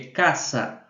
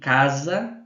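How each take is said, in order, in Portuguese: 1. A consoante do meio é um som de s, sibilante. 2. A consoante do meio é um som de z, com zumbido. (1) "é caça" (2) "Esse som de casa não existe"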